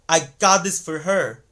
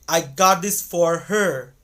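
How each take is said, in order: First: The word for is reduced to fur. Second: The word for has a full aw vowel. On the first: The speaker calls it right. "but rather they're gonna say" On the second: The speaker calls it wrong. "native speakers won't say"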